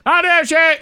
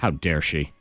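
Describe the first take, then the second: First: It is said at the highest volume. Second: It is said at the lowest volume.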